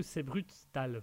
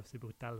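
First: Said in the usual way. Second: Catchphrase repeated much softer, fading away; quiet echo. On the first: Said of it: "vous avez vu le fameux". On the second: Retold or imitated. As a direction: echo the catchphrase under the breath. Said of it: "le fameux C'est brutal". (répété tout bas, comme un écho)

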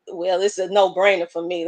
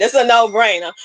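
First: Said in the usual way. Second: "no-brainer" restated firmly, a touch louder; emphatic restatement. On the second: Real, not acted. Host insisting to viewers it's a "no-brainer". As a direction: lean into "no-brainer" to drive it home. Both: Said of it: "Let me just put it like that".

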